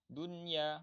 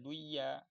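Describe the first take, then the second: First: The n sound is pronounced clearly. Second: The n sound is dropped. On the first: The speaker calls it right. "harus dibaca izhar" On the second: The speaker calls it wrong. "nggak boleh dibaca duya"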